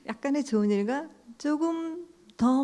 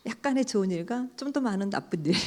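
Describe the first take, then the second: First: Laughing through "조금 더", pitch higher; amused laughing repeat. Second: Said in the usual way. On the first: Shown as a demonstration. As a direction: chuckle at the irony as you repeat it.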